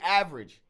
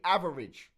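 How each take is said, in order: First: The word is said with two syllables. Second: The word is said with three syllables. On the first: The speaker calls it right. "We say average" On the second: The speaker calls it wrong. "We do not say average. Nobody does that"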